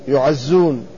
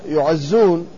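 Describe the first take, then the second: Both takes have the same delivery.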